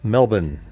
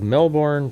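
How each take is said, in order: First: It is said in an Australian accent. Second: It is said in an American accent.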